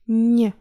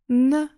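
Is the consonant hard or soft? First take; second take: soft; hard. First: The consonant is said soft. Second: The consonant is said hard.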